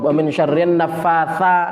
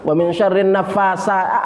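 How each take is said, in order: First: The consonant is a soft th sound. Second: The consonant is a plain s sound. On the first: The speaker calls it right. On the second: The speaker calls it wrong.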